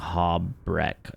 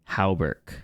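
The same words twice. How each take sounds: First: The word ends with a 'breck' sound. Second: The word ends with a 'berk' sound. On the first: The speaker calls it wrong. "I was flipping the R in E and the A in the U" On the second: The speaker calls it right. "I was like so wrong"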